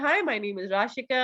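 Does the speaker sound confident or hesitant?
confident. It is said confidently and fluently, without fillers. The speaker makes the listener more interested. The speaker calls it right. "अगर मैं अपने आप को इस तरीके से पोर्ट्रे कर रही हूँ"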